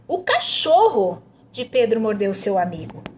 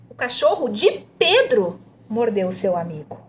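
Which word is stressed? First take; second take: cachorro; Pedro. First: The emphasis falls on "cachorro". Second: The emphasis falls on "Pedro". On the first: "tá pedindo para enfatizar o cachorro" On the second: "pede para enfatizar de Pedro"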